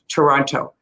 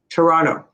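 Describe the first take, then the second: First: The second T is pronounced. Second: The second T is dropped. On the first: The speaker calls it right. "It's better to do it Toronto" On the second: The speaker calls it wrong. "Some people do drop the T there"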